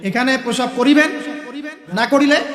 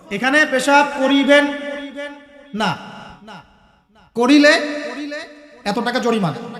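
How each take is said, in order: First: The pause comes right before 'na'. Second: The pause comes right after 'na'.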